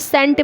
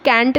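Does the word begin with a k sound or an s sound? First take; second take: s sound; k sound. First: The word begins with an s sound. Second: The word begins with a k sound. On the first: The speaker calls it right. "यहाँ पर सेंट बोला जाएगा" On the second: The speaker calls it wrong. "यहाँ पर इसको कैंट नहीं बोला जाएगा"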